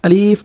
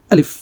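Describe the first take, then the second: First: আলিফ with the second vowel dragged long; drawn-out আলিফ. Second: Said in the usual way. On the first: Shown as a demonstration. Teacher shows learners what to avoid, আলিফ drawn out. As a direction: stretch the "li" of আলিফ, as a mistake. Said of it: "টান দিব না". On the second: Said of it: "আলিফ আমরা টান, টান দিব না".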